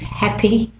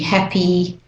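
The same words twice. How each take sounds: First: The final vowel is clipped shorter. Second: The final vowel is drawn out longer. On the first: "for the other two accents... It's a bit shorter" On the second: "for Australian English, we tend to make it a bit longer"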